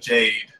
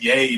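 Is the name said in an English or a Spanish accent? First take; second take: English; Spanish. First: The name is said with an English accent. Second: The name is said with a Spanish accent. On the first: This is the usual way the name is said. "instead of Jade" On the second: This is how the game character says it.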